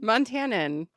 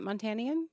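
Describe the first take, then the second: First: The word has no 'ee' sound before the end. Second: The word has an extra 'ee' sound before the end. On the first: The speaker calls it right. "I was adding an extra letter in there" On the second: The speaker calls it wrong. "is that how you say it?"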